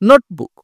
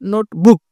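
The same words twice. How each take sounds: First: The stress is on the first syllable. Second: The stress is on the second syllable. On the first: The speaker calls it right. "একটু জোরে হবে এই নোট" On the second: The speaker calls it wrong. "এরকম বলবো না আমরা যে notebook, এরকম না"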